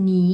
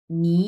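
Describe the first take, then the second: First: "নি" in Mandarin third tone. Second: "নি" starting low and rising upward; second tone. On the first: Teacher showing the unchanged tone to learners, third tone on "নি". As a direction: say "নি" with a dipping Chinese third tone, louder. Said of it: "এই যে আমি তিন number tone উচ্চারণ করলাম". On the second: Teacher modelling the changed tone for learners, rising "নি". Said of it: "নিচ থেকে উপরের দিকে উঠবে". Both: Shown as a demonstration.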